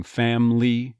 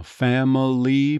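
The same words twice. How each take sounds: First: "family" as "FAM-lee"; dropped middle syllable. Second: "family" as "FAM-uh-lee"; careful "family" with its middle schwa; full three syllables. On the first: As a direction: squeeze "family" into two syllables. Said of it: "just becoming family". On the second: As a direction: sound out every syllable of "family" slowly. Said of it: "probably dropping that middle syllable". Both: Shown as a demonstration.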